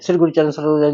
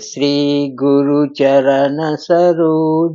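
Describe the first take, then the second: First: It is recited quickly, words run together. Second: It is recited slowly, word by word. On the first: It is rushed through without attention. The speaker calls it wrong. "ऐसे नहीं" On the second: Each word is attended to with devotion. The speaker calls it right. "आराम से पढ़िए। ... एक-एक शब्द को ध्यान से।"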